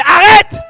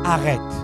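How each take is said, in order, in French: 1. Il est dit sur un ton sec et autoritaire. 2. Il est dit sur un ton doux et suppliant. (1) "C'est différent de" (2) "Je te supplie, arrête de pleurer"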